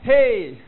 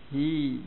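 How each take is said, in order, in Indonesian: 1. Vokal itu berbunyi 'ay'. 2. Vokal itu berbunyi 'ee'. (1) "bukan itu" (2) "Ha kasrah hi"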